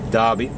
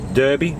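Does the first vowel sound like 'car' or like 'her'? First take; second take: car; her. First: The first vowel sounds like 'car'. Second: The first vowel sounds like 'her'. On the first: This is how other people say the name. "Other people might claim" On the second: This is how locals say the name. "which I believe locals call it"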